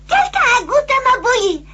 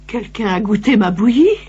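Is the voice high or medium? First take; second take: high; medium. First: It is said in a small, high voice. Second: It is said in a medium voice.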